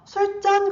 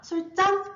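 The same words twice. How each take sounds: First: The second syllable starts with a plain consonant. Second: The second syllable starts with a tense consonant. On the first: The speaker calls it wrong. "우리가 술잔이라고 하지 않잖아요" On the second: The speaker calls it right. "사이소리가 난 거예요"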